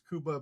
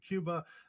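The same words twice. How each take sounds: First: It uses a non-American pronunciation. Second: It uses the common American pronunciation. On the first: "I tend to uh, pronounce it uh, as" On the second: "or as many Americans say"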